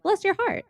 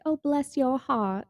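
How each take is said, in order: First: High, sweetly sincere bless; mean every word of "Bless your heart"; a high, rising, truly kind "Bless your heart". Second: Slow, snide "Oh, bless your heart"; drawn-out mock-sweet "Oh, bless your heart" with a sneer; backhanded. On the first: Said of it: "can either mean". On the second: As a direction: say "Oh, bless your heart" but mean go away. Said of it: "in the, you know, F you kinda way". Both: Shown as a demonstration.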